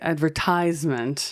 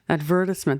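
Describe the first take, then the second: First: It is said the American way, with American stress. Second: It is said the British way, with British stress. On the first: "in America, we would say" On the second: "That's perfect"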